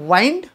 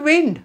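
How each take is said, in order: First: The vowel sounds like eye. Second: The vowel sounds like ih. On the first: "वाइंड चुकीचं आहे का? तर नाही" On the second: "वाऱ्याला म्हटलं जातं विंड"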